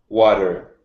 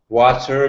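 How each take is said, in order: First: The middle consonant sounds like a D. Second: The middle consonant is a clear T.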